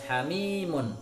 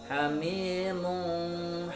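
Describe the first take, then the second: First: The final n is pronounced crisply, with no hum. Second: The final n is blurred into a vague nasal. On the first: The speaker calls it right. "Bacaannya harus jelas" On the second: The speaker calls it wrong. "Atau dibaca samar"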